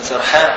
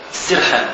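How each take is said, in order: First: سرحان said sarhan, open a on the first syllable, meaning distracted; سرحان with an open a after the s; sarhan with fatha. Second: السرحان said as-sirhan, short i after the s, meaning the fox; السرحان with a clear i on the first syllable; sirhan with kasra. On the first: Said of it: "فأنت سرحان ولا سرحان". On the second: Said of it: "بكسر السين". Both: Shown as a demonstration.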